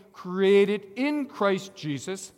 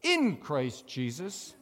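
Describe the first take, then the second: First: Created in Christ Jesus slow, louder, in lifted; stress on in. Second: In Christ Jesus slow, in pressed hard; stress on in. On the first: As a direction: model the line slowly with in stressed. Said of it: "Say that with me". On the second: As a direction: press in slowly, then let Christ Jesus flow. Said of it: "Put the little bit of emphasis on it like I did". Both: Shown as a demonstration.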